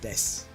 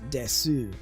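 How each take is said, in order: First: The final vowel is dropped. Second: The final vowel is fully pronounced. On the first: Spoken the way a fluent native says it. "it becomes shita or des" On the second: Spoken the way a beginner says it. "a new speaker would pronounce desu"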